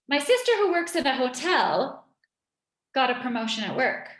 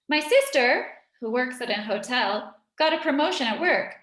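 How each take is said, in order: First: The middle clause runs on with the subject unseparated. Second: Pauses set the middle clause apart on both sides. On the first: The clause specifies which sister is meant. "I make a break here" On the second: The clause adds extra information about the sister. "I separate this information"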